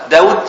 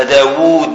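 First: "داود" said short, as written with one waw; نطق بواو واحدة. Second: "داوود" with the long uu drawn out; نطق بواوين. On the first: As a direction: say "داود" with a short final vowel, Dawud. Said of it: "التي فيها واو واحدة تقرأها". (نطق "داود" قصيرة بواو واحدة) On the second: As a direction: stretch the second syllable of "داوود" as Daawuud. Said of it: "ولا داوود بواوين". (نطق "داوود" ممدودة بواوين) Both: Shown as a demonstration.

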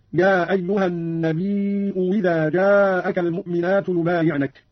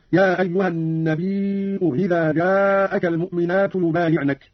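First: "النبي إذا" said with a clear w replacing the second hamza; slow recitation, "إذا" begins "wi-"; hamza as waw. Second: Second hamza softened in "النبي إذا"; slow recitation, glide lightly over the hamza of "إذا" after "النبي"; hamza eased. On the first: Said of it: "ووجه الإبدال". (إبدال همزة "إذا" واوا بعد "النبي") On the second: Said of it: "مع تسهيل الهمزة الثانية". (تسهيل الهمزة الثانية في "النبي إذا") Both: Shown as a demonstration.

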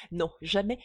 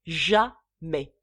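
First: Said in the usual way. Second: Jamais, thrown out much louder with a hard fall; loud final refusal. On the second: Acted. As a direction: bark the last jamais, with finality. Father refuses the marriage.

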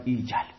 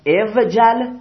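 First: ایجل with a long ee, "ee-jal", softly; vav turned to ya. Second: اوجل with the vav sounded, "ev-jal", slow; original unchanged form. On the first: Teacher giving the changed form after the rule, long ee pronounced. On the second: Teacher showing the underlying form of the imperative, vav pronounced. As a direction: say اوجل as "EV-jal", consonant v before the jim. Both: Shown as a demonstration.

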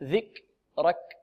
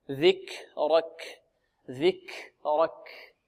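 First: ذكرك with a clicked, airless ك; kaf without breath. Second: ذكرك very slow with long airy ك; flowing breath on kaf. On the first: Teacher showing missing breath, slow airless kaf. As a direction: pop each ك of ذكرك and stop the air. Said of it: "أين النفس الذي جرى؟". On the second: Teacher demonstrating flow of breath, slow soft aspirated kaf. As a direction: let air run out after each ك in ذكرك. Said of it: "هذا جريان النفس". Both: Shown as a demonstration.

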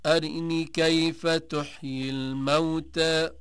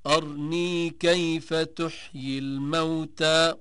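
First: Slow chant, أرني as "arinee"; brief i after the r in أرني; short i on r. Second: Slow chant, أرني as "arnee"; no vowel between r and n in أرني; silent-vowel r. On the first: Teacher demonstrating al-Duri, أرني chanted as "arinee". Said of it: "قرأ الدوري عن أبي عمرو". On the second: Teacher demonstrating the variant, أرني chanted as "arnee". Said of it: "قرأ ابن كثير والسوسي". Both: Shown as a demonstration.

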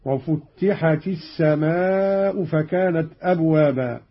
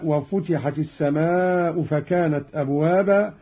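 First: "وفتحت" as "wa-futtihat", held tt; slow recitation pressing the first t of "وفتحت"; doubled ta. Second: "وفتحت" as "wa-futihat", light t; single ta. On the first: Teacher demonstrates Qalun's reading, "وفتحت" with doubled t. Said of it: "قرأ قالون بتشديد التاء الأولى هكذا". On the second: Teacher reads the verse before the variant, "وفتحت" as futihat. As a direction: recite "وفتحت" with undoubled first t. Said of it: "قرأ قالون بتشديد التاء الأولى". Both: Shown as a demonstration.

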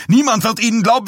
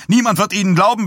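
First: Hoher, lauter, schneller Wutschrei auf Niemand; überschlägt sich bei Niemand; wütend schreiend. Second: Hoher, lauter Wutschrei auf Niemand; wütend schreiend. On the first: (hoch, laut und schnell, Betonung auf Niemand) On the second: (hoch und laut keifend, Betonung auf Niemand) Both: A narrator's reading. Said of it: "Dies stotterte wütend".

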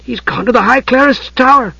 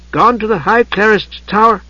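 First: High, aghast exclamation. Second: High voice deciphering a note; reading aloud. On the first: Tas grasping where Palin went, aghast. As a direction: exclaim it in shocked realisation. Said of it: "Tas paused aghast". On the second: Tas reading smudged note to Usha, reading aloud. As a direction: read it out piece by piece. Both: A narrator's reading.

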